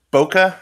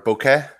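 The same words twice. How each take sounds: First: "bokeh" as BOH-kuh, ending in a weak "uh"; alternate pronunciation. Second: "bokeh" as BOH-keh, ending in an open "eh"; alternate pronunciation. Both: Shown as a demonstration. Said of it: "it's been pronounced seven different ways".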